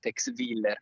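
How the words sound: The name is said in an Italian style. This is how ordinary people say it. "noi italofoni in realtà quando siamo per strada diciamo"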